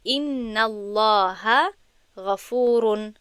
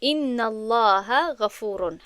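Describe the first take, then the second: First: Slow, careful Arabic recitation of «ان الله غفور» with weight on الله; slow Arabic example. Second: Slow repeat, stressing ان; slow second reading of «ان الله غفور» that hits ان and falls at the end; slow Arabic example. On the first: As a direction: read out very slowly, stressing الله. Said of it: "مثال". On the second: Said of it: "مثال رو نظر کنید". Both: Shown as a demonstration.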